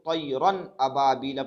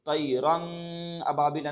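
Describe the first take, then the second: First: The n sound is pronounced clearly. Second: The n sound is hidden in the nose. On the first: The speaker calls it right. "इसको तैरन अबाबिला पढ़े थे" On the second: The speaker calls it wrong. "नहीं पढ़े थे"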